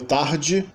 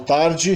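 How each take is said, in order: First: It is said with a Rio accent. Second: It is said with a São Paulo accent. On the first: "Rio de Janeiro" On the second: "Em São Paulo"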